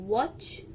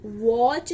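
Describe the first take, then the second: First: Said in the usual way. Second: वॉच drawn out with a long, stressed o; wrong long vowel. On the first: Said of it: "क्या बोलते हैं?". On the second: Shown as a demonstration. Teacher showing students the reading to avoid, long o. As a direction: stretch the o in वॉच slowly. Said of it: "हम वॉच नहीं बोलते".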